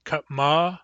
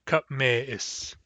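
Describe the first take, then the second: First: Katma with open A in the last syllable, ending "mah"; Katma, unchanged A after the M; without umlaut. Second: Katme is, with E after the M, then a glottal stop before "is"; with umlaut. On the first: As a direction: say the base form Katma, second vowel A. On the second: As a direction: shift to "meh" in katme is. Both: Shown as a demonstration. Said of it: "the A of katma becomes an E".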